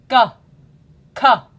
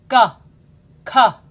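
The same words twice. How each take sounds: The two takes are said the same way.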